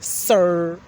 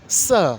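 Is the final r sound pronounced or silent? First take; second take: pronounced; silent. First: The final r sound is clearly pronounced. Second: The final r sound is left silent. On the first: "but I appreciate when people say sir" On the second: "because I'm talking British English"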